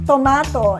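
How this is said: The word is said with a British accent. "in British English"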